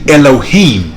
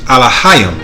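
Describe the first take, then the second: First: The word is pronounced as Elohim. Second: The word is pronounced as Alahayim. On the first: The speaker calls it wrong. "Now they say Elohim" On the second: The speaker calls it right. "the pronunciation in the um, Paleo Hebrew or phonetic Hebrew is Alahayim"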